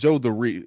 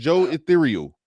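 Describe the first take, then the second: First: The end is said as two words, 'the real'. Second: The end is said as one word, 'ethereal'. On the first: The speaker calls it right. "It's Joe the Real" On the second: The speaker calls it wrong. "not Ethereal"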